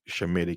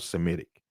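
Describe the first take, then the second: First: The word begins with an 'sh' sound. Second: The word begins with an 's' sound. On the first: The speaker calls it right. "it should be Shemitic" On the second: The speaker calls it wrong. "not Semitic"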